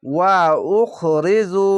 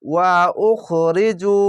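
First: ওয়া উখরিজু split into two crisp parts; clear recitation. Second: ওয়া উখরিজু slow, each sound distinct; Quranic recitation. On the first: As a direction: say ওয়া, then উখরিজু distinctly. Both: Shown as a demonstration. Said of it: "স্পষ্টভাবে উচ্চারণ করবে".

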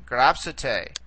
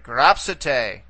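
First: Gropsite repeated at normal speed, falling at the end; teacher repeating gropsite at normal pace. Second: Gropsite drawn out slowly, stress on grop; teacher modelling gropsite slowly; slow model pronunciation. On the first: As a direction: say gropsite again naturally. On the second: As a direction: sound out gropsite for the class. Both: Shown as a demonstration. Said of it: "Okay, so".

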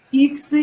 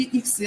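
First: Иксы stressed on the first syllable; Иксы with strong И, weak Ы. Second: Иксы stressed on the last syllable; иксы with weak И, strong Ы. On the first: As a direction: hit the opening И of Иксы. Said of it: "ударение нужно поставить на И". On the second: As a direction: hit the final Ы of иксы. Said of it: "как мы обычно частенько". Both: Shown as a demonstration.

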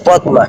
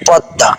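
First: পদ্মা with the ম sounded, "pod-ma"; spelling pronunciation. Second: পদ্মা with silent ম and doubled d, "pod-da"; correct spoken pronunciation. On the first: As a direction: say পদ্মা as written, pronouncing d and m. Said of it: "বানানে আসে পদ্মা". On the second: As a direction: say পদ্মা as "podda", no m sound. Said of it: "আপনাকে উচ্চারণ করতে হবে". (ম ছাড়া, দ দ্বিত্ব করে "পদ্দা") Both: Shown as a demonstration.

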